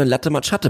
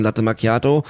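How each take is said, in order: First: "Latte Macchiato" as LAT-te ma-CHAT-te; Brandenburg mispronunciation. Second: "Macchiato" with a k sound; correct pronunciation. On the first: Retold or imitated. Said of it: "Hier in Brandenburg wird auch gerne". ("Latte Macchiato" falsch als "Latte Matschatte") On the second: Shown as a demonstration. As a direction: say "Latte Macchiato" as mak-YAH-to. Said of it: "bestellt als ein". ("Latte Macchiato" richtig als "Makiato")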